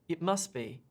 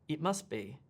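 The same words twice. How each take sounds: No difference in how they are said.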